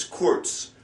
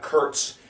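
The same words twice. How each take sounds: First: "kurz" with an "oo" vowel; double-O vowel. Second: "kurz" with an English "er" vowel; wrong "er" vowel. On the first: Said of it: "kinda like a double O sound". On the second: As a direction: say "kurz" to rhyme with "hurts". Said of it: "It's not a er". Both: Shown as a demonstration.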